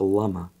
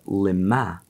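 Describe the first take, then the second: First: The first vowel sounds like 'a'. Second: The first vowel sounds like 'i'. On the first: It asks why. "If we pronounce the word not lama" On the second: It asks for what purpose. "but lima"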